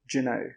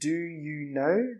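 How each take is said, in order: First: The words are run together quickly. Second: Each word is said slowly and fully. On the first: The speaker calls it right. "we say do you know" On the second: The speaker calls it wrong. "we don't say do you know"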